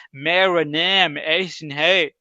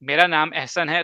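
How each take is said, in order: First: Slow, stretched-out Urdu in a Western accent, mocking a foreigner; a mock foreigner saying میرا نام احسن ہے with English vowels. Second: میرا نام احسن ہے said the way native Urdu speakers say it; plain native میرا نام احسن ہے, the correct sounds. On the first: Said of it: "وہ یہ کہے گا". (گورے کا اردو لہجہ) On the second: Shown as a demonstration. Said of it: "لیکن اگر وہ یہ کہتا ہے". (صحیح اردو تلفظ)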